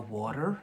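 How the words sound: It is said in an American accent. "in America, proper American"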